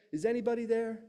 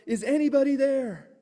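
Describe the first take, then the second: First: High-pitched call at talking volume; mock yell, held back; toned-down call for help. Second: High, loud call into the distance; acted desperate yell, pitched up; yelled call for help. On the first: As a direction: call out high without really shouting. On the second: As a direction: call out loudly for anyone to hear. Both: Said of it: "and he yells out".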